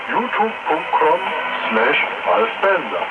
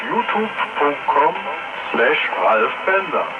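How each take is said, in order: Both takes have the same delivery.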